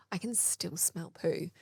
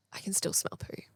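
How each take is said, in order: First: Softer, slower puzzled murmur; puzzled quiet aside to herself. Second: "I can still smell poo" as a breathy unvoiced whisper; alarmed whisper on coming back into the room. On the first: Retold or imitated. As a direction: say "I can still smell poo" softly and slowly, voiced, to yourself. Retold puzzled realisation. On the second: Retold second realisation, whispered.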